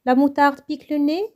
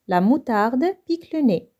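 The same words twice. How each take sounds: First: "La moutarde pique le nez" lifted into a question toward "nez"; rising intonation. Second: Said in the usual way. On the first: Shown as a demonstration. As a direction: ask "La moutarde pique le nez" with the pitch climbing at the end. (intonation montante sur « nez ») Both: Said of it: "avec une intonation montante".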